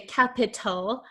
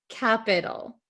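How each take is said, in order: First: The middle t is a crisp, true t sound. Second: The middle t is a soft d-like flap. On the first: The speaker calls it wrong. "we do not pronounce it in American English like a true T sound" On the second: The speaker calls it right. "usually it's going to become something called a flap T, which sounds like a soft D"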